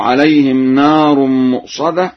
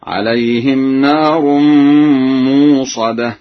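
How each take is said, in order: First: Said in the usual way. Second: Long uu in موصدة, no glottal stop; slow recitation, موصدة as muusada; hamza replaced. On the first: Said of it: "قرأ ورش بالإبدال". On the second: Shown as a demonstration. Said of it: "أي بإبدال الهمزة هكذا".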